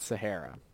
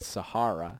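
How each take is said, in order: First: The word is said with an American pronunciation. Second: The word is said with a British pronunciation. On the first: "not Sahara" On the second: "apparently in England it's called Sahara"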